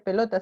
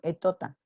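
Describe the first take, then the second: First: The word starts with a P sound. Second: The word starts with a vowel sound. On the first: This is the intended adult form. The speaker calls it right. "que no dice pelota" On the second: This is how a child with the disorder says it. The speaker calls it wrong. "sino etota"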